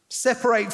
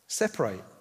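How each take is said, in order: First: It is said in an aggressive, harsh tone. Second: It is said in a calm, gentle tone. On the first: The other person is being driven away angrily. "I don't know if he said it in an aggressive, get out of here" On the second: The parting is proposed kindly and peacefully. "I don't think that is how he said it"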